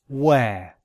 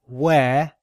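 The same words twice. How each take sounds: Both takes have the same delivery.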